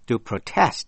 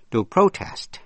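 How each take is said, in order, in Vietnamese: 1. Trọng âm rơi vào vần thứ hai. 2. Trọng âm rơi vào vần thứ nhất. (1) "nhấn mạnh vần nhì" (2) "nhấn mạnh vần nhất"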